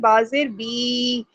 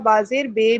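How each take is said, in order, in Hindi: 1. अंतिम स्वर एक पूरा, साफ़ 'ee' जैसा स्वर है। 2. अंतिम स्वर एक ढीला 'ay' जैसा स्वर है। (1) "पावरफुल तरीके से अपने नीचे वाले होंठ को अ, नीचे की तरफ किया" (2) "आपकी आवाज़ मजहूल हो जाएगी"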